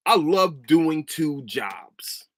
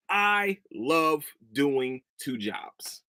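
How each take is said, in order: First: Dry sarcastic reply, dragged out slowly. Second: Said in the usual way. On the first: Retold or imitated. Answering a coworker's question, slow and sarcastic. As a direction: drawl it with mock cheer. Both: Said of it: "simple sarcastic comment".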